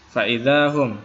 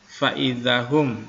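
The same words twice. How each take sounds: First: The vowel after the z is held long. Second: The vowel after the z is short. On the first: The speaker calls it right. "harusnya za-nya ini kan ada dua harokatnya" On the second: The speaker calls it wrong. "tadi dibaca faidahum"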